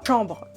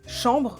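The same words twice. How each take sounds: First: The first sound of the word is cut off. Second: The word is heard whole from its start. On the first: The speaker calls it wrong. "là j'ai coupé le début du mot, c'est pas beau du tout" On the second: The speaker calls it right. "je dis chambre"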